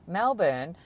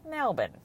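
First: It is said the way outsiders say it. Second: It is said the way locals say it. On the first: "as pronounced correctly by the rest of the world" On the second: "we prefer to call it Melbourne"

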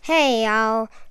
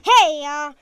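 First: The greeting is said with ordinary energy. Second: The greeting is said with lots of energy.

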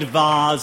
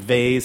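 First: The word is said in a fancy-sounding way. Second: The word is said in a plain, everyday way. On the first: This sounds pretentious and old. The speaker calls it wrong. "They all sound too fancy" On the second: This is the normal everyday way. The speaker calls it right. "I'm vase"

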